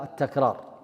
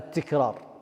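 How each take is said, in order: First: The first vowel is an 'a' sound. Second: The first vowel is not an 'a' sound. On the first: The speaker calls it right. "الصحيح التكرار بفتح التاء" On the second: The speaker calls it wrong. "بعضكم ينطقها التكرار، لا"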